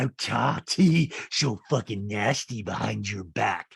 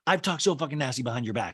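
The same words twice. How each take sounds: First: Slow, emphatic castmate impression; a hint of a nasty reality star; imitated confession. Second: Said in the usual way. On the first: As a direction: draw it out, biting on each word. Acts out Rinna, then repeats her. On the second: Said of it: "Rinna says".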